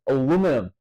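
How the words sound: It has four syllables, ending in -num. "the way it's spelt in America is literally how you would say"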